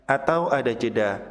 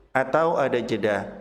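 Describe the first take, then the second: No difference in how they are said.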